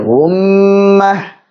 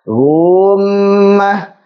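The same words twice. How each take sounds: First: The first vowel is short, the m is held. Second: The first vowel is stretched before the m. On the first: The speaker calls it right. "langsung saja masuk ke mim bertasydid" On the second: The speaker calls it wrong. "jangan sampai jadi apa?"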